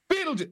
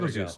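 First: It is said much more loudly. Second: It is said fairly quietly.

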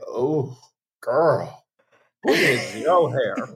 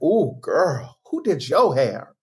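First: It sounds disapproving and mocking. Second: It sounds admiring and impressed.

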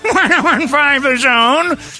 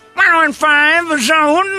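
First: It is said with a fake laugh. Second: It is said in an angry tone.

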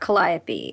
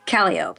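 First: It is pronounced the standard, non-local way. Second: It is pronounced the local New Orleans way. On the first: The speaker calls it wrong. "not Calliope" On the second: The speaker calls it right. "It's Calliope"

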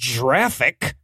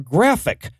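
First: The word starts with a soft J sound. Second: The word starts with a hard G sound. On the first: The speaker calls it wrong. "not graphic" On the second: The speaker calls it right. "The G in GIF stands for graphic"

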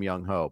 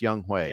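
First: The second syllable sounds like 'ho'. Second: The second syllable sounds like 'hway'. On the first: The speaker calls it wrong. "Call him Young Ho" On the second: The speaker calls it right. "but it's Young Hwe"

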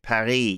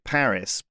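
First: Paris is said with a French pronunciation. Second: Paris is said with an English pronunciation. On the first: This is the French name for the city. "but the French calling it Paris" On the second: This is the English name for the city. "how do you feel about us calling it Paris"

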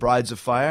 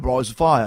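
First: It is said in the speaker's plain accent. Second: It is said in a West London accent. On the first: The listener heard it as brides. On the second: The words intended are bright as a fire.

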